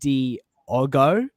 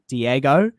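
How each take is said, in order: First: The middle vowel sounds like 'oh'. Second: The middle vowel sounds like 'eh'. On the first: The speaker calls it right. "but it's Diogo" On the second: The speaker calls it wrong. "I called him um Diego"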